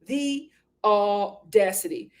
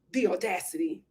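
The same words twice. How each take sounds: First: AUDACITY stretched out, syllable by syllable; slow, emphatic "the audacity"; drawn-out indignation. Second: Said in the usual way. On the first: Real, not acted. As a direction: break AUDACITY into slow, separate beats. Repeats it drawn out, broken up.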